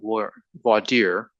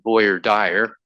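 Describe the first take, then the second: First: It is pronounced the usual, non-Texas way. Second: It is pronounced the way Texans say it. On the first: "they call it voir dire" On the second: "some people, like in Texas, pronounce it voir dire"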